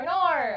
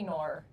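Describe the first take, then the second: First: "Nor" in a higher, louder Australian accent. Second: Said in the usual way. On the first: Shown as a demonstration. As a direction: belt out "Nor" Australian-style for the viewer. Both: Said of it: "they asked me to say".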